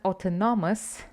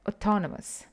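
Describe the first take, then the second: First: The word is said with a Romanian pronunciation. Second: The word is said with an English pronunciation. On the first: The speaker calls it wrong. "It's not autonomous, like you would say it in Romanian" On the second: The speaker calls it right. "but autonomous"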